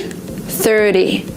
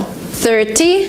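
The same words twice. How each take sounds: First: "thirty" said "thirdy", falling. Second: "Thirty" with a crisp t, rising; T pronounced as T. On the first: Teacher giving examples, "thirdy". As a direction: soften the t of "thirty" to a d. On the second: Teacher giving examples, clear-t "Thirty". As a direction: sound the t in "Thirty". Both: Shown as a demonstration. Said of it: "this T converts to D".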